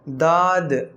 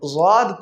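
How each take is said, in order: First: The first consonant is a light plain D. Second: The first consonant is a heavy emphatic sound. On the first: The speaker calls it wrong. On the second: The speaker calls it right.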